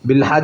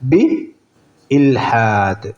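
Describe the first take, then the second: First: The glottal stop is dropped and the words run together. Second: The glottal stop is clearly pronounced before 'ilhad'. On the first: The speaker calls it wrong. "ബിൽഹാദ് എന്നല്ല" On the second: The speaker calls it right. "ഹംസയെ ശരിക്കും ചിരിക്കണം"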